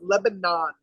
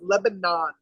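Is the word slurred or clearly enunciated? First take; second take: enunciated; enunciated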